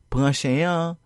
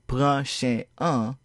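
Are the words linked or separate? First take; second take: linked; separate. First: The words flow together without breaks. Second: The words are said separately, with breaks. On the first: The speaker calls it right. "then you were correct. Notice how the sound un is pronounced as if it flows along with the word that comes before it" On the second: The speaker calls it wrong. "If you did not pronounce this as"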